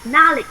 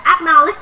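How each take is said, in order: First: "acknowledge" with the first syllable barely touched, sounding like "Knowledge"; very light "ac-". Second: "acknowledge" with a full, heavy first syllable; wrong version, "acknowledge" with a strong AK at the start; overpronounced "ac-". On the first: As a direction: swallow the "ac-" of "acknowledge". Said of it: "cái từ ực nó, nó rất là nhẹ". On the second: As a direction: sound out the "ac" in "acknowledge" clearly. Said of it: "Không phải là acknowledge đâu ạ". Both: Shown as a demonstration.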